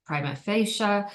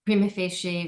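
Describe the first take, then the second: First: "prima facie" said as PRY-muh FAY-shuh; alternative pronunciation. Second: Said in the usual way. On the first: Shown as a demonstration. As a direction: say "prima facie" with a long I in prima and an "uh" ending on facie. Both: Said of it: "sometimes pronounced prima facie".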